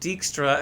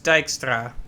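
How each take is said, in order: First: The name is said with an English pronunciation. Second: The name is said with a Dutch pronunciation. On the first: The speaker calls it wrong. "there is a spy master called Dijkstra" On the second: The speaker calls it right. "except it's Dijkstra, which is a Dutch"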